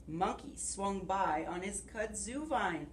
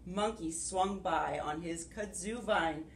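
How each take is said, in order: Both takes have the same delivery.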